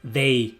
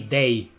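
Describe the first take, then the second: First: It begins with a hard d sound. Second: It begins with a hard d sound.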